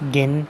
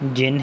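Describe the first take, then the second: First: The word begins with a hard g sound. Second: The word begins with a j sound. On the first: "इसको जिन नहीं पढ़ना आपने, गिन है ये" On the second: "आप इसको कॉटन जिन पढ़ सकते हैं, ये जिन है"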